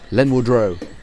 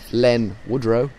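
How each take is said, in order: First: The name runs together as a single word. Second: The name is split into two separate words. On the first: The speaker calls it right. "All one word" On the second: The speaker calls it wrong. "It's not"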